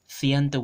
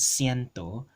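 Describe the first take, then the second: First: The word begins with a th sound. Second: The word begins with an s sound.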